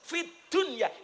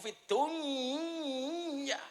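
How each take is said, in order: First: The consonant is pronounced clearly and separately. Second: The consonant blends into the following word. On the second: "Idham niku"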